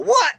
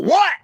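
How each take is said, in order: First: Yell. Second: A short, sharp "What?" shouted much higher and louder; yell. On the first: Pretend. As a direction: yell back "What?" as if your name was called. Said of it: "and I just yell". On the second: Shown as a demonstration. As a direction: call out "What?" as if answering from across a golf course. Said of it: "I'm not gonna yell".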